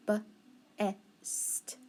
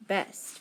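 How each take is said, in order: First: Unvoiced "b-est" split at the b; whispered segmenting. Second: "best" whispered as one smooth word; whispered blend. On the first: Teacher sounding out the word in a whisper. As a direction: whisper "b-est" with the b pulled apart. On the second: Teacher blending the sounds in a whisper. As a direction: whisper "best" all joined together. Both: Shown as a demonstration. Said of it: "So then I would have".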